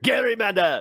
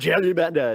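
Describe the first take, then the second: First: The word begins with a hard g sound. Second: The word begins with a soft j sound. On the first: The speaker calls it right. "It's called the Garymander" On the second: The speaker calls it wrong. "What'd you call it?"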